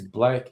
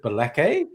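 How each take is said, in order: First: The name is said as one syllable. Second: The name is said with an added vowel, two syllables. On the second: "he pronounces it Balake"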